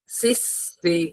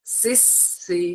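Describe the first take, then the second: First: "সিস সি" with a thin, airy lisped s, no whistle; soft th-like s. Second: "সিস, সি" with sharp sibilant s, held like a whistle; higher, softer "সিস, সি" with a whistled স; whistling s. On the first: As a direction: let air slip between tongue and teeth on the স in "সিস সি". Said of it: "এটা যেন সিনের মতো উচ্চারণ না হয়". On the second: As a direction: hiss the স in "সিস, সি" clearly, no lisp. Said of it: "এই সিটির ন্যায় যে আওয়াজটা". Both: Shown as a demonstration.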